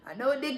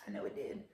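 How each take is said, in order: First: Said in the usual way. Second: Breathy whisper, barely voiced; whispered aside. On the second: Real, not acted. Telling viewers her face brought joy, whispered to herself. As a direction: murmur it to yourself.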